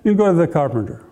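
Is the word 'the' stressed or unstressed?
unstressed. The word 'the' is light and unstressed. Any ordinary carpenter will do.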